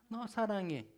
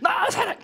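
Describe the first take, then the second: First: It is said at a normal, softer volume. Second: It is shouted at full volume.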